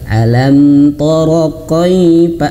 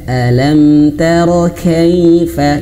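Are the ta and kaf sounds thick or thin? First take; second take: thick; thin. First: The ta and kaf sound thick and heavy. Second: The ta and kaf sound thin and light. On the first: The speaker calls it wrong. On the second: The speaker calls it right. "Ta dan kaf tipis"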